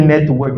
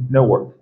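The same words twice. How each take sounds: First: Said in the usual way. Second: Network with the t flapped, newok; American network. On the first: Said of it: "tu dis network". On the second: Shown as a demonstration. Teacher contrasting his American network with theirs. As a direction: let the t in network vanish. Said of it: "je dis network".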